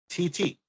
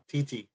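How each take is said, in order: First: The name is said slowly and drawn out. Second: The name is said quickly and briskly. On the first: "Why are you saying it so slow?" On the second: "Say it faster"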